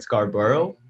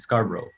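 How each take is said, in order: First: The ending is said fully like 'borough'. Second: The ending is said short and reduced. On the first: This is how the name is supposed to be said. "It's supposed to be Scarborough. It's a borough, right?" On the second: This is how locals actually say the name. "but we call it Scarborough"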